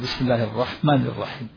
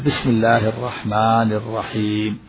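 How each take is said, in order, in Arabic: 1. تُقصَر حروف المد ولا تُمَدّ. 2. تُمَدّ حروف المد مقدار حركتين. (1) "لكن إذا لم يمد ماذا يقول؟" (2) "يمد الحروف الطبيعية مقدار حركتين"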